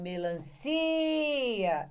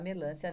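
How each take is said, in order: First: The stress falls on the syllable ci. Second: The stress falls on the syllable lan. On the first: The speaker calls it right. "é o si que tem o som estendido" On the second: The speaker calls it wrong. "Ninguém vai mais falar melancia nessa vida ou achar que o lã é sílaba tônica"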